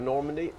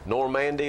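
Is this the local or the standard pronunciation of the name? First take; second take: standard; local. First: It is said the standard way. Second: It is said the local way. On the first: It is how people elsewhere would say it. "instead of" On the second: It is how people in the state say it. "we just refuse to pronounce them like somebody else would"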